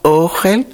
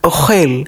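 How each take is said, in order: First: The stress is on the first syllable. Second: The stress is on the last syllable.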